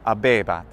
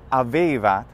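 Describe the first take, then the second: First: The consonants between the vowels sound like b. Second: The consonants between the vowels sound like v. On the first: This follows current church pronunciation. "instead of abebat" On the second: This matches how native speakers of that period spoke. "you would be saying now in ecclesiastical pronunciation avevat"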